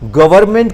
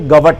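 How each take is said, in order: First: The word is said in full. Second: The word is clipped to two syllables.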